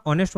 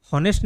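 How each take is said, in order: First: ऑनेस्ट starting straight on the vowel, no h; silent h. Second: हॉनेस्ट with a sounded h at the start; wrong pronunciation with h. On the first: Teacher showing students the correct ऑनेस्ट with silent h. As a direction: say ऑनेस्ट with no h sound. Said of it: "ऑनेस्ट होता है". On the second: Teacher showing students the wrong हॉनेस्ट with h. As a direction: say हॉनेस्ट, pronouncing the h. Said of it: "हॉनेस्ट नहीं होता". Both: Shown as a demonstration.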